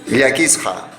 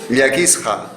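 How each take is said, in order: Both takes have the same delivery.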